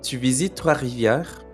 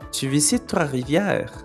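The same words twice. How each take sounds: First: The voice falls at the end. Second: The voice rises at the end. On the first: It is a statement. "c'est une affirmation, alors la voix descend à la fin" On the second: It is a question. "c'est une question, alors la voix monte à la fin"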